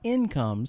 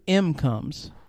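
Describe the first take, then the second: First: The word begins with an 'in' sound. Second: The word begins with an 'em' sound. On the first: The speaker calls it right. "not incomes" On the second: The speaker calls it wrong. "M come with an M"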